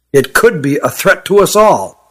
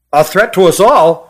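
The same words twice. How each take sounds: First: Said in the usual way. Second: Mildly raised, incredulous echo; loud echo. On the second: A narrator's reading. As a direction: repeat it as a mild exclamation. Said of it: "said Hut loudly".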